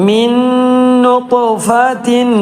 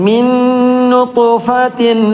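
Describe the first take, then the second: Both takes have the same delivery.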